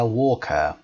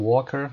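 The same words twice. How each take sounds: First: It ends without any r sound. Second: It ends with a pronounced r sound. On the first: "راب میگه walker. walker صدای آ رو در انتها تلفظ نمی کنه" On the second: "در امریکن میگیم walker"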